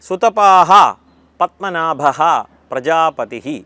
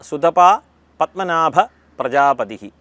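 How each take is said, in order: First: A breathy sound follows 'sutapa'. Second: No breathy sound follows 'sutapa'. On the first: The speaker calls it right. "ഈ മൂന്ന് സ്ഥലത്തും വിസർഗമുണ്ട്" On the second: The speaker calls it wrong. "ഇത് കേട്ട് കാണും"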